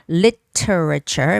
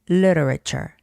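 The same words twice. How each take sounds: First: The T is a crisp, hard T sound. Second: The T is soft, sounding like an L. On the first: "making the hard T sound" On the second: "making the soft T sound, more like an L"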